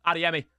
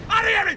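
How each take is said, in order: First: Said in the usual way. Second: ADEYEMI yelled high and loud; celebratory shout. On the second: Real, not acted. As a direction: shout the scorer's name in celebration. Celebrating, then tells himself calm down.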